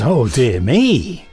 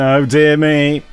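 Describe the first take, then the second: First: It sounds delighted and full of praise. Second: It sounds disappointed, as if about to criticise.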